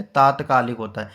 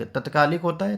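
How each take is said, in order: First: तात्कालिक with a long first aa, taat-; correct long a. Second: तत्कालिक with a short first a, तत-; wrong form first. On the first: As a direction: stretch the first syllable of तात्कालिक. (तात्कालिक में लंबा 'ता', सही उच्चारण पर ज़ोर) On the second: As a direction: read the wrong spelling तत्कालिक quickly, short त. (तत्कालिक में छोटा 'त', गलत उच्चारण दिखाते हुए) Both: Shown as a demonstration. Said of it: "तो सही वर्तनी है तात्कालिक".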